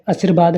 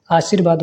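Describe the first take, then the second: First: आशीर्वाद with a short first a; wrong vowel length. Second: आशीर्वाद with a long first aa; correct long vowel. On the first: Teacher shows students the mistake, short first vowel. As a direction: open आशीर्वाद on a brief a. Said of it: "नहीं". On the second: Teacher corrects students, long first vowel. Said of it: "होता है". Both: Shown as a demonstration.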